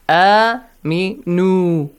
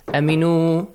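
First: The first vowel is held long. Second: The first vowel is cut short. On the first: The speaker calls it right. "Long vowel sounds" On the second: The speaker calls it wrong. "Do not say"

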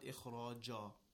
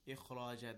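First: The final ja sound is thick and heavy. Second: The final ja sound is thin and light. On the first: The speaker calls it wrong. "not ikhraja" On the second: The speaker calls it right. "The ja is not a letter of tafkhim"

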